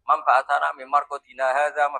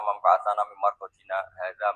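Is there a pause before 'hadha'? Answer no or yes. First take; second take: no; yes. First: The words run on with no pause before the last. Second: There is a brief pause before the last word. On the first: The same speaker asks and answers the question. The speaker calls it wrong. "Kalau dibaca langsung ya" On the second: The question and the answer come from different speakers. The speaker calls it right. "yang pertama kaulu sailin dipisah dengan sakta"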